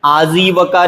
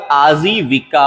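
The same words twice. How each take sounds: First: आजीविका with no i after v, aa-jee-va-kaa; wrong pronunciation. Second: आजीविका slowly, with vi: aa-jee-vi-kaa; slow down and sound the vi in आजीविका; correct pronunciation. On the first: Teacher showing the mistake, आजीविका said as aa-jee-va-kaa. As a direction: say आजीविका as aajeevaka. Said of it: "नहीं होता". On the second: Teacher correcting it, आजीविका said slowly as aa-jee-vi-kaa. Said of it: "होता है". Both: Shown as a demonstration.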